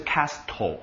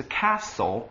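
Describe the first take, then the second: First: Castle with a sounded T; "castle" wrongly said with an audible T; T pronounced. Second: Castle with the T left silent; "castle", T dropped completely. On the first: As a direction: say "castle" as CAST-tol, hitting the T. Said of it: "不是castle啊". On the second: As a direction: say "castle" as CASS-ul, no T sound. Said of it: "这个T是不发音的哦". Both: Shown as a demonstration.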